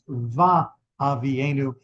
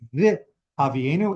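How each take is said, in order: First: The first syllable has an a vowel. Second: The first syllable has an i vowel. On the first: The speaker calls it right. "That is considered the pro- proper pronunciation" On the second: The speaker calls it wrong. "it doesn't say vi Avienu in the usual form"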